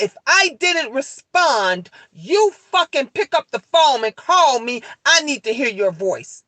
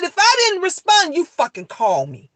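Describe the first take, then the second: First: Firm warning. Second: Stern scolding. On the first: Mother repeating her warning just like she told the officer, firm. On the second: Mother scolding her son in front of the police, stern. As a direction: lay down the law to her son. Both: Retold or imitated. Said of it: "I said it just like that to the officer".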